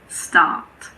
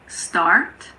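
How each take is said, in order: First: The R sound is silent. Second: The R sound is clearly pronounced. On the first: "but in British English, it's start" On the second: "In American English, it's start"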